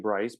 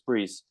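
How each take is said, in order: First: The vowel sounds like 'eye'. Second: The vowel sounds like 'ee'. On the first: The speaker calls it wrong. "they would always say Bryce" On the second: The speaker calls it right. "it's Brees ... the I in the French language is pronounced an E"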